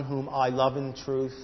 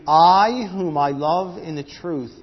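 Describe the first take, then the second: First: Said in the usual way. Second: "I" punched loud and drawn out, slow; slow, loud emphatic reading, "I" hit first; stress on I. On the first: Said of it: "now read three with me". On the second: Shown as a demonstration. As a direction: lean hard on "I whom I love in the truth". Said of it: "is emphatic".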